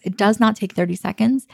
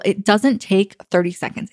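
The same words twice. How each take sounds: First: Insisting it's nothing, "not" stressed. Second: Said in the usual way. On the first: Shown as a demonstration. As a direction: split "does not" and lean on "not".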